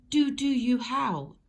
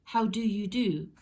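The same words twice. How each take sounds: First: Slow, louder mock-formal greeting; polite greeting. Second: Polite greeting. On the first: Townsfolk greeting each other topsy-turvy, mock-formal. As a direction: offer it as a stiff polite hello. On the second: Acted. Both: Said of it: "instead of".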